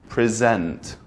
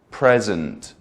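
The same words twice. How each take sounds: First: "present" as the verb, pri-ZENT; second-syllable stress. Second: "present" as the noun, PREZ-ent; first-syllable stress. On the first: Teacher showing the meaning change, end-stressed "present". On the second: Teacher showing the meaning change, front-stressed "present". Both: Shown as a demonstration. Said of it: "if you add stress to either side".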